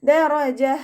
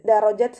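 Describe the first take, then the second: First: The word ends with a soft h sound. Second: The word ends with a t sound. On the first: The speaker calls it right. "ഹാ സുക്കൂനിൻ്റെ സൗണ്ടിനെ ഫീൽ ചെയ്യിപ്പിക്കുക" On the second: The speaker calls it wrong. "താക്കു സുക്കൂന് കൊടുത്തിട്ട് വഖഫ് ചെയ്യരുത്"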